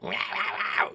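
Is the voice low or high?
high. It is said in a higher, goblin-like voice.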